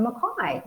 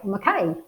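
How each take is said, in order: First: Mackay said as "muh-KYE", stress on the last syllable; Mackay with a final "eye" sound; Mackay one way. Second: Mackay said as "muh-KAY", ending like "day"; Mackay as the locals say it; Mackay the other way. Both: Shown as a demonstration. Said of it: "depending on where you come from as to how you say it".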